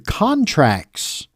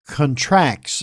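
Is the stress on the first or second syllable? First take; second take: first; second. First: The stress is on the first syllable. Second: The stress is on the second syllable. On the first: It names legal documents. "a legal document, but it's pronounced contracts ... K O N, as I'm spelling it phonetically" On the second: It means gets smaller. "but in this article, contracts"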